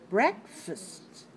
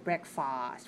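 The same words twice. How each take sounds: First: The stress falls on the first syllable. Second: The stress falls on the second syllable. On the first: The speaker calls it right. "We say breakfast. The second syllable is weak. We stress the first syllable" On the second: The speaker calls it wrong. "We don't say breakfast"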